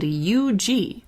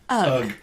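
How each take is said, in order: First: The name is spelled out as two letters. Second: The name is said as one short word. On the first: "Not sure how you wanted me to pronounce that one, so you get both options" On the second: "or alternately"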